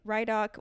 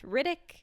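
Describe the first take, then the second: First: The first syllable sounds like 'rye'. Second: The first syllable sounds like 'rid'. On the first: The speaker calls it wrong. "we were saying Rhydock" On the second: The speaker calls it right. "when it is in fact Riddick"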